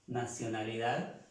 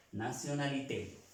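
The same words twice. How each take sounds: First: Said in the usual way. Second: "nationalité" in French, final té clearly voiced; French pronunciation. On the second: Shown as a demonstration. Teacher contrasting the Spanish and French word, crisp French ending. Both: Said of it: "se pronuncia la E".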